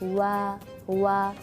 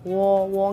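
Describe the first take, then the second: First: The syllable is said with a thin, light sound. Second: The syllable is said with a thick, heavy sound. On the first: The speaker calls it right. "tapi wa wa seperti itu" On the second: The speaker calls it wrong. "nggak boleh suara kita tebal, wo wo nggak"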